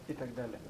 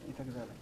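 No difference in how they are said.

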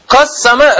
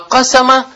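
First: The middle s sound is doubled. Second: The middle s sound is single. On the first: Divided. "«Кассама» разделил" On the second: Made it widely known. "а «кассама» – «ашхара»"

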